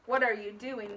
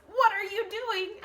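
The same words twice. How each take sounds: First: Said in the usual way. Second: Higher, louder "What are you doing?"; exclaimed question. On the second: Shown as a demonstration. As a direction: ask it with alarm. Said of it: "because she's saying it".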